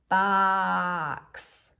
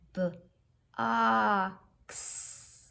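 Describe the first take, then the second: First: The word is drawn out slowly without breaking. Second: The first sound is split off by a pause. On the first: "let's say it in slow motion" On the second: "Let's say it with pauses"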